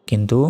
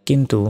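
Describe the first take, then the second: The two takes are said the same way.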